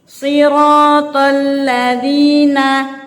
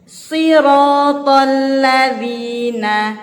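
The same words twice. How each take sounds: No difference in how they are said.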